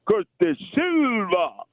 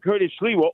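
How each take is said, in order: First: The surname is said in a Spanish-sounding form. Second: The surname is said with its usual pronunciation.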